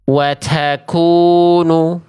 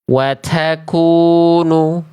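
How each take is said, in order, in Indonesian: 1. Bunyi t berhembus kuat, berlebihan. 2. Bunyi t berhembus kuat, berlebihan.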